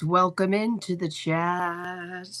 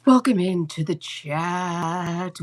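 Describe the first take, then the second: First: Said in the usual way. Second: Slow drawn-out welcome. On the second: Shown as a demonstration.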